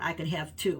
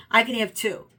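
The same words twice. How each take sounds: First: Said in the usual way. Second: "I" pushed louder with a falling end; stress on I. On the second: Shown as a demonstration. Insisting to viewers she may pick two, stress on "I". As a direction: lean on "I could have two" to insist.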